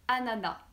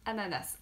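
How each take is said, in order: First: The final S is silent. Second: The final S is pronounced. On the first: The speaker calls it right. "normalement on ne prononce pas le S, on dit ananas" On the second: The speaker calls it wrong. "Même si j'avoue que moi je dis ananas. Donc euh, c'est pas bien"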